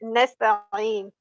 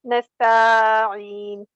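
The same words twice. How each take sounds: First: Nasta'een with ta kept brief; correct short ta. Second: Nasta'een with ta dragged out; wrongly prolonged ta. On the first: Shown as a demonstration. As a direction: move quickly through ta in Nasta'een. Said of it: "We don't prolong the". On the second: Retold or imitated. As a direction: hold the ta of nasta'een too long. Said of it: "The ta is prolonged".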